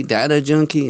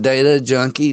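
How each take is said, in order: First: Data said as "DAT-uh"; short A, as in "cat", in Data; DAT-uh pronunciation. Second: Data said as "DAY-tuh"; long A in the first syllable of Data; DAY-tuh pronunciation. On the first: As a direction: say Data with a flat "dat" first syllable. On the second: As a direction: say Data to rhyme with "later". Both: Shown as a demonstration. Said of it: "Is it data or data?".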